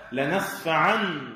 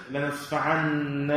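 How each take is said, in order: First: Slow لنسفعا ending in a single "an" sound; light nun. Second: لنسفعن with a doubled, held "nna" ending; heavy nun. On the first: Teacher correcting the reading, light single nun in لنسفعا. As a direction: end لنسفعا on an undoubled nun, no "na" after it. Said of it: "هذه ليست لنسفعن، لا، لنسفعا". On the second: Teacher giving the wrong reading for contrast, heavy doubled nun in لنسفعن. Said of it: "هذه ليست لنسفعن". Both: Shown as a demonstration.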